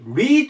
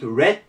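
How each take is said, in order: First: The word has a long ee vowel. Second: The word has a short e vowel. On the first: It is the present tense. "リードなんですが" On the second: It is the past tense. "こっちはレッドと言います"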